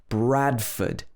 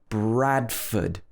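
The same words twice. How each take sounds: The two takes are said the same way.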